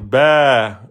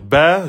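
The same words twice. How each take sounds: First: The vowel is long, held two beats. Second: The vowel is short, held one beat. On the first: "passer de un temps en deux temps" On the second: "au lieu de dire ba"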